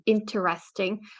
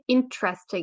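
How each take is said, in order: First: Every vowel in the word is fully pronounced. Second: The vowel after the first syllable is reduced. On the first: The speaker calls it wrong. "instead of interesting" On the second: The speaker calls it right. "if you say interesting instead of"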